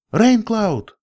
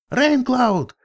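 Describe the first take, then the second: First: High, loud call across a cliff; shouting a name. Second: Much higher, frantic yell; yelling a name. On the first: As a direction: call out his name sharply. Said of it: "крикнула я". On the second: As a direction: scream his name in a panic. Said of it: "завопил единорог". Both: Acted.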